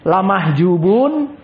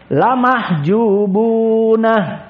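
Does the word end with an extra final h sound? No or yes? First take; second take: no; yes. First: The word ends plainly on the final n. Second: The word ends with an added breathy h sound. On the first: This is the common reading. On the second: This is the reading of a different reciter tradition.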